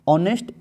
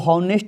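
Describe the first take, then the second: First: The word begins directly with a vowel. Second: The word begins with an h sound. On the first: The speaker calls it right. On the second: The speaker calls it wrong.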